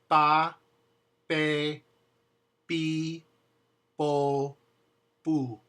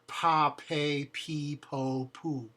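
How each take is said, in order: First: The p sounds have no puff of air. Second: The p sounds have a puff of air. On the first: The speaker calls it right. "The P in Spanish is the one that doesn't have air behind it" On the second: The speaker calls it wrong.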